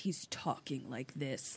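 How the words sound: It is said in a menacing, terrifying voice.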